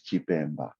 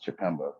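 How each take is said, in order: First: It is said with its traditional pronunciation. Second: It is said with a relaxed American accent.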